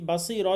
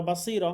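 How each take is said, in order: Both takes have the same delivery.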